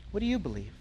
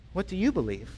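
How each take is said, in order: First: Softer, pressing. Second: Said in the usual way. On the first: Shown as a demonstration. Pastor presses the congregation, softer and intimate. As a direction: repeat it much softer and more intimate. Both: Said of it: "asks the question twice".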